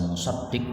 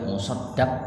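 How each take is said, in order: First: The vowel after the d is 'i'. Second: The vowel after the d is 'a'. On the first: It means the zakat collector. "bisa musaddiq berarti amil zakat" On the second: It means the person paying zakat. "dalnya di fathah"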